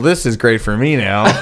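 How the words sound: It is said in a put-on giant child voice.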